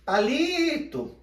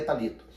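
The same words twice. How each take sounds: First: PALITO called high and loud with a long LI; calling out, stretched syllable. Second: Said in the usual way. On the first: Shown as a demonstration. Teacher calling a friend at his house, Palito stretched on LI. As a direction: call Palito slowly, holding LI. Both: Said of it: "o li é a parte que eu mais permaneci".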